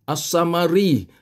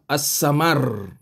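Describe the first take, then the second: First: The final consonant is followed by a vowel. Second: The word ends on a stopped consonant. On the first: The reader carries on without stopping. "katalah as-samari" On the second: The reader stops at the end of the verse. "jadilah dia as-samar"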